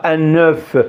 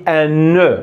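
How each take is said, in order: First: "un neuf" with the f sounded at the end; wrong pronunciation. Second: "un ne" with the f of oeuf kept silent; correct pronunciation. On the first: Teacher warning learners against the wrong form, "un neuf" with a sounded f. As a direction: say "un neuf" as the mistake, pronouncing the final f. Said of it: "mais on dit pas". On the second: Teacher showing learners the right way, "un ne" with no f sound. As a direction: say "un ne" as the teacher models it, no f at the end. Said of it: "On dit". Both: Shown as a demonstration.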